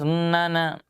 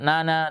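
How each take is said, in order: First: The n has a lingering nasal hum. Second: The n has no lingering nasal hum. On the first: The speaker calls it right. "harus ada di hidung yang keluar" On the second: The speaker calls it wrong. "bukan nana"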